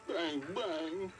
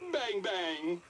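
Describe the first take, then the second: First: It is said in a sad tone. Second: It is said in a happy tone.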